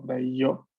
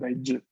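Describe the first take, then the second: First: The middle consonant is a soft y sound. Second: The middle consonant is a strong j sound. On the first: The speaker calls it wrong. "No es como Daiyo" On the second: The speaker calls it right. "La Y de este sonido es fuerte"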